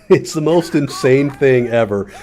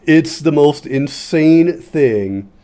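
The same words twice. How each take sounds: First: Said in the usual way. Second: Slow, stretched-out emphasis on every word; drawn-out emphasis. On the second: Shown as a demonstration. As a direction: lean on it slowly, amazed.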